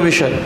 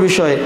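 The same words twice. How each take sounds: Both takes have the same delivery.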